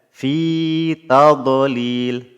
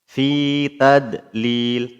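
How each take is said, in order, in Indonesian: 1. Bunyi d emfatis dengan pantulan bergema. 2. Bunyi d biasa tanpa gema. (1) "dibaca dengan huruf dad yang sukun namun masih pantul" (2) "Kesalahan pertama huruf dadnya dibaca dal"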